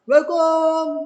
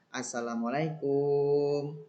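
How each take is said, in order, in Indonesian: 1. Salamnya diteriakkan dengan sangat keras. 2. Salamnya diucapkan dengan tenang dan pelan. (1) "janganlah kalian teriak-teriak sekencang-kencangnya. Contohnya" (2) "kalian harus tetap sopan santun"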